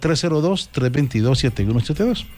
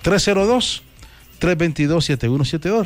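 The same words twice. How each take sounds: First: The number is said fast. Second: The number is said slowly.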